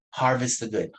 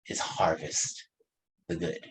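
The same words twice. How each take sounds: First: Said in the usual way. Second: "harvest" breathed as a whisper, "the good" soft; hushed emphasis on "harvest the good". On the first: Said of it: "repeats the key phrase". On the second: Shown as a demonstration. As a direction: drop to a hush on "harvest". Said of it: "stresses the key phrase".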